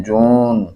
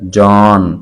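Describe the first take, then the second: First: जून with long oo for aa; colloquial pronunciation. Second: जॉन with long open aa vowel; written-form pronunciation. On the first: Teacher showing the conversational form, colloquial pronunciation. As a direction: round the vowel of जून to oo. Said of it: "गुफ्तगू में जब लेकर आते हैं". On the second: Teacher showing the written form, formal pronunciation. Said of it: "असल में नविश्तारी". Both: Shown as a demonstration.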